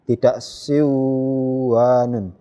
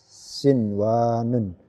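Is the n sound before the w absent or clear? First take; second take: absent; clear. First: The n sound is dropped into the w. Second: The n sound is pronounced clearly before w. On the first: The speaker calls it wrong. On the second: The speaker calls it right. "Dibaca jelas ya nun sukunnya"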